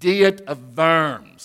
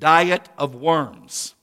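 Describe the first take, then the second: First: Worms begins with a V sound. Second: Worms begins with an English W sound. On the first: The speaker calls it right. "but it's Diet of Worms, okay? It's German. The W has that V sound" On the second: The speaker calls it wrong. "You would read it Diet of Worms in English"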